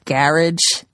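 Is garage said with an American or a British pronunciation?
British. It is said with a British pronunciation.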